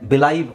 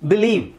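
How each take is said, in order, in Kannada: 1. ಎರಡನೇ ಉಚ್ಚಾರಾಂಶದಲ್ಲಿ 'eye' ಸ್ವರ ಇದೆ. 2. ಎರಡನೇ ಉಚ್ಚಾರಾಂಶದಲ್ಲಿ 'ee' ಸ್ವರ ಇದೆ. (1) "ಇದೇ ಲೈನ ನಾವು ಇಲ್ಲಿ ಹಾಕ್ತೀನಿ" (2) "ಇಲ್ಲಿ ಐ ಇ ಅಂತಿದೆ ಅಲ್ವಾ? ಸೊ ಹಾಗಾಗಿ"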